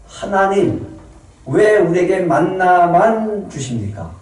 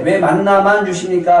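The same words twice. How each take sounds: First: Slow, higher mock whine to God; greedy whining. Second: Higher, louder mock whine; greedy whining. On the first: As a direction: whine for more than manna. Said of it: "탐욕은요". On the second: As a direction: nag God for more. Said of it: "탐욕 가운데".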